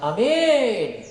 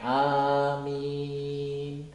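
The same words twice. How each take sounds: First: Not all vowels in the word are long. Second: All vowels in the word are held long. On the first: The meaning of the word changes. The speaker calls it wrong. "jangan amin" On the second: O Allah, grant our request. The speaker calls it right. "Yang benar panjang semuanya"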